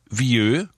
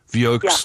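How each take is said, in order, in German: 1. Es wird mit französischen Lauten ausgesprochen. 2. Es wird Buchstabe für Buchstabe ausgesprochen, im deutschen Stil. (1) "das französische Wort vieux" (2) "Spricht man ihn manchmal so aus, wie er geschrieben wird"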